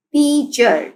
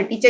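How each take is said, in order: First: teacher drawn out as tea-cher; teacher parting tea, cher in teacher; syllable by syllable. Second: Said in the usual way. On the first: Shown as a demonstration. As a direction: sound out teacher in two beats. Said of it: "teacher के भी टू syllables हैं". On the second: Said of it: "भी टू syllables हैं".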